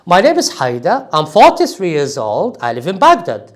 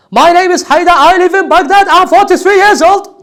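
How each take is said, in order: First: Normal voice, stressing "name", "forty-three" and "Baghdad"; relaxed self-introduction with key words stressed; natural stressed intonation. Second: Loud, much higher, announcer-style self-introduction; mock broadcast announcer reading; overexcited announcer. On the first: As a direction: say it conversationally, leaning a little on "name" and "Baghdad". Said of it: "focus on the main word and stress it". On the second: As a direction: belt it out like a hyped sports commentator. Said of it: "you are not a commentator". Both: Shown as a demonstration.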